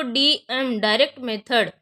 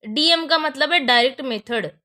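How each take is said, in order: First: Slow and deliberate, stressing DM; slow, emphatic. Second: Said in the usual way. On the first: Shown as a demonstration. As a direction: say DM direct method slowly so students note it. (धीरे और ज़ोर देकर) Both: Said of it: "आप कुछ और मत पढ़िएगा इसको".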